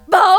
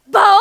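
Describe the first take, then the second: First: The bark sounds sad and mournful. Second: The bark sounds surprised and astonished.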